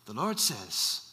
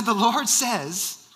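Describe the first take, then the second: First: Low, soft attempt at Nigerian; badly imitated Nigerian accent, kept quiet; deep-pitched, soft-spoken Nigerian imitation; poor Nigerian accent. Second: Slow, drawn-out attempt at Nigerian; measured, badly faked Nigerian accent; Nigerian accent retry. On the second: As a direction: imitate a Nigerian man, slowly and firmly. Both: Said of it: "that's not a good Nigerian accent".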